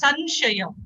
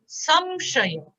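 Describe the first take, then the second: First: The nasal before 'sh' is an n sound. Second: The nasal before 'sh' is an m sound. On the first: The speaker calls it wrong. "I hear all the Hindi people saying it's Sanshaya. It's not na" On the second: The speaker calls it right. "it's ma"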